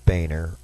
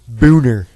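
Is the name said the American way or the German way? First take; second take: American; German. First: The name is said with an American pronunciation. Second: The name is said with a German pronunciation. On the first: This is how the name's owner says it. The speaker calls it wrong. "I know he pronounces it Boehner" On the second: This is how the name is said in German. The speaker calls it right. "I speak German, John. Your last name is pronounced Boehner"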